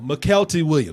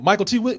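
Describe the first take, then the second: First: The first part is slurred into 'McKelty'. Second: The first part is said clearly as 'Michael T'. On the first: The speaker calls it wrong. "I didn't say no Michael T. Williams" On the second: The speaker calls it right. "that's how you say it"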